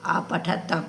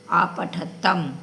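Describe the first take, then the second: First: Said in the usual way. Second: Slow spelling out. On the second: Shown as a demonstration.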